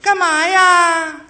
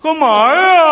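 First: It is said in a thin, soft woman's voice. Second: It is said in a gruff man's voice.

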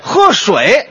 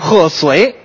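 First: It is said in Standard Mandarin. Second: It is said with a Tianjin accent.

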